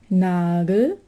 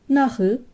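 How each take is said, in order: First: Standard German, with a hard g in the middle. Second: Palatinate dialect, with a ch sound instead.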